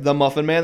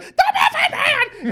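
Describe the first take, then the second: First: Said in the usual way. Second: Much higher, slow, laughing scream of The Muffin Man; screaming gingerbread man. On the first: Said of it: "And he's like". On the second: Retold or imitated. Quoting Shrek's gingerbread man to friends, a slow high laughing scream. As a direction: shriek it out like a frantic cookie. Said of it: "And he fucking screams it".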